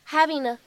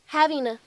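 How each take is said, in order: The two takes are said the same way.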